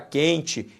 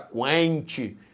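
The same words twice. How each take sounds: First: The u after the q is silent. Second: The u after the q is pronounced. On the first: The speaker calls it right. "você fala quente. Então, o Q U é dígrafo" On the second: The speaker calls it wrong. "você não fala quente"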